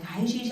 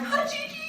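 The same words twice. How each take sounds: First: Breezy, slightly raised hello; light businesslike greeting; casual phone greeting. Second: Very high, loud squeal; hammed-up desperate eagerness; overeager greeting. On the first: Retold or imitated. Assistant calls the actress again, casual greeting. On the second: Actress answers the assistant again, overeager squeal.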